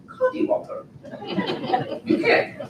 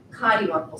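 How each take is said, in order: First: Playful, high-pitched British accent. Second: Said in the usual way. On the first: Shown as a demonstration. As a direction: say it in a mock British lilt. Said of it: "say it with a British accent". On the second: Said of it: "the word is cottywomble".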